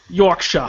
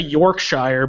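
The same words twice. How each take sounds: First: The ending is said the English way. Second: The ending is said the American way. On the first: The speaker calls it right. "That's the one" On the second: The speaker calls it wrong. "we would say Yorkshire, but I know that's not how it's pronounced"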